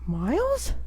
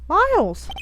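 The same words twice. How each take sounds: First: The voice rises at the end, like a question. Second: The voice falls at the end, like a statement. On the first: The speaker calls it right. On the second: The speaker calls it wrong.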